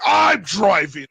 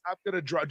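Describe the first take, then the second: First: Loud, drawn-out mock shout; demonstrated outburst. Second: Said in the usual way. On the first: Shown as a demonstration. Showing how the driver announced it, loud drawn-out shout. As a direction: mimic him bellowing it, stretching the words. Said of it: "just like, "I'm driving". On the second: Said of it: "Not like I'm gonna drive".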